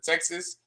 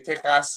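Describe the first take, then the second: First: It is said with an American accent. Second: It is said with a Spanish accent.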